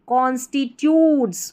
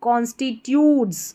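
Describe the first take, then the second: No difference in how they are said.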